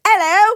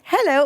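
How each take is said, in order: First: High, loud British hello; put-on British accent. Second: Said in the usual way. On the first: Shown as a demonstration. Asking which hello she uses, mock British accent. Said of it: "or do you say". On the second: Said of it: "Do you say".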